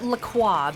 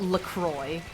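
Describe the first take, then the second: First: The name is said with a French pronunciation. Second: The name is said with an English pronunciation. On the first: The brand name is French. "I pronounce it La Croix because it's fucking French" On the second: This is how most people say it. "most people would call it LaCroix"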